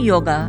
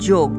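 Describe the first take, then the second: First: The word ends with an open 'a' vowel. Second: The word ends on a final 'g' consonant. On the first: This is the English form of the word. "ইংরেজিটা উচ্চারণ করলে বলি" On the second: This is the Bengali form of the word. "বাংলায়"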